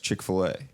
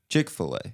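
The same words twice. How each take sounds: First: The stress falls later, not on Chick. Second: The stress falls on the first syllable, Chick. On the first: The speaker calls it right. "it's Chick-fil-A" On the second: The speaker calls it wrong. "You emphasize chick"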